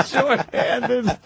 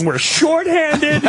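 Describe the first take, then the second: First: Laughing echo. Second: Much higher, very slow, laughing cop voice; quoting the frazzled cop's excuse, laughing; cop losing it. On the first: Real, not acted. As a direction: own voice, laughing as he repeats Shorthanded. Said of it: "echoing the cop's word". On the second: Retold or imitated. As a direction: stretch it out high like a cracking cop. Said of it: "He's just losing it".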